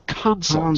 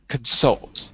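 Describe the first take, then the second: First: The stress is on the first syllable. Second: The stress is on the second syllable. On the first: It is the noun. "as a noun, put the stress on the first syllable" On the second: It is the verb. "as a verb"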